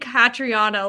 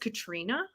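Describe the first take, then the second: First: The name has an 'o' vowel before 'na'. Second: The name ends in 'trina' with no 'o' vowel. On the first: The speaker calls it wrong. "I've been saying Catriona" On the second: The speaker calls it right. "her name is Katrina?"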